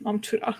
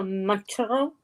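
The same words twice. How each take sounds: First: Softer, fluent "멈춰라"; correct model pronunciation. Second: Tentative learner's try at "멈춰라"; unsure learner's attempt. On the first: Teacher correcting her friend's attempt, practised pronunciation. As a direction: model "멈춰라" softly with assured Korean sounds. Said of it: "you're so much better at it". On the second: Student repeating the Korean word to her teacher, unsure. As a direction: attempt "멈춰라" with a foreign learner's approximate sounds. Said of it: "I feel like I said it wrong". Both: Shown as a demonstration.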